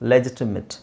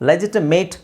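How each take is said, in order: First: The last syllable sounds like 'it'. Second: The last syllable rhymes with 'ate'. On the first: The speaker calls it right. "It's" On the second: The speaker calls it wrong. "ಲೆಜಿಟಿಮೇಟ್ ಅಂತ ಹೇಳ್ತೀವಿ ನಾವು"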